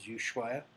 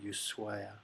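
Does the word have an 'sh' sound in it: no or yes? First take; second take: yes; no. First: The middle has an English 'sh' sound. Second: The middle has no 'sh' sound. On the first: The speaker calls it wrong. "so there's an S H there. People pronounce it as Ushuaia" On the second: The speaker calls it right. "the H is in Spanish is silent, so it's actually Ushuaia"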